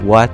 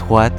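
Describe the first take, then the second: First: The word starts with a plain w sound. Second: The word starts with a breathy h-like w.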